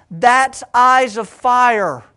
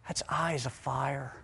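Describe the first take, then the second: First: Loud, high and slow, every word weighted; proclaimed. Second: Low, hushed, almost to himself; hushed awe. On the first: Preacher driving home his point, proclaiming loudly. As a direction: proclaim it like a revelation. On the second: Preacher hushed before the big reveal. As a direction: say it softly, letting it sink in. Preacher names Jesus' fiery gaze. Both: Acted.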